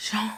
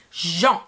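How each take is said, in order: First: Jean begun with an airy sh-like sound; airy first consonant. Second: Jean with a voiced zh at the start; proper French J. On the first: Retold or imitated. Teacher imitating the actor's mispronounced Jean, airy at the start. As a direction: soften the J of Jean into air. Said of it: "kind of airy". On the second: Shown as a demonstration. Teacher showing the name correctly, Jean with a voiced French J. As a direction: buzz the J of Jean clearly. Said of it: "instead of using the J".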